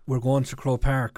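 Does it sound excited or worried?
excited. It sounds excited and eager.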